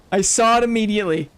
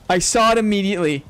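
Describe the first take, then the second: No difference in how they are said.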